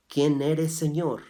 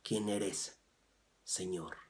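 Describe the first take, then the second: First: Loud awed question; urgent loud question. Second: Softer, humble repeat of the question; hushed reverent question. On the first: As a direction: ask it out loud, high and pressing. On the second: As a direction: ask it softly, in reverence. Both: Shown as a demonstration. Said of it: "¿Te das cuenta cómo dice?".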